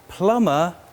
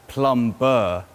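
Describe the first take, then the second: First: The B sound is silent. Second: The B sound is pronounced. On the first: The speaker calls it right. "we have to swallow the B. It's a silent B. So we say plumber" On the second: The speaker calls it wrong. "not plumber"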